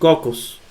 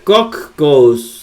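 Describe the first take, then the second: First: The middle consonant is short and single. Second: The middle consonant is held long. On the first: The speaker calls it right. "como si no existiera una de las dos" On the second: The speaker calls it wrong. "no se pronuncia cocos"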